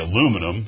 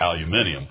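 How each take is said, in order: First: The word is said with four syllables. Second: The word is said with five syllables. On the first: "if you told him to say aluminum" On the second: "he would say aluminium"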